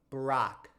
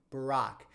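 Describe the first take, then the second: No difference in how they are said.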